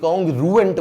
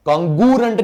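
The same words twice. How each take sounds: First: "congruent" said slowly and clearly as "con-gru-ent"; correct pronunciation of congruent. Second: "congruent" said slurred as "con-gurent", the r after g dropped; teacher demos the wrong way, "congruent" said as "con-gu-rent" with no r; wrong pronunciation of congruent. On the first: Teacher models for students the right way, "congruent" said slowly as "con-gru-ent". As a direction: carefully model "congruent" with a clear gr and three syllables. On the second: Teacher shows students the wrong way, "congruent" said as "con-gurent" with no r.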